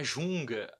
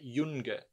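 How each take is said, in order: First: The word begins with a soft zh-like sound. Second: The word begins with a y-like glide sound. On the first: The speaker calls it wrong. "não é junga aqui" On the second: The speaker calls it right. "é yunga"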